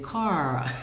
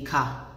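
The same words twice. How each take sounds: First: The vowel is dragged out and drawled. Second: The vowel is short and clipped. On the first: This is how Southern Americans say it. "They say car. ... they drag their vowel sounds" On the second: This is how the speaker's own community says it. "we say a car"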